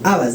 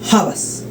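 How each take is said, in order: First: The word starts directly with the vowel sound. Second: The word starts with a raspy throat sound. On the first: The speaker calls it wrong. "no dice habas" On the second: The speaker calls it right. "se pronuncia como si tuviera una J al inicio"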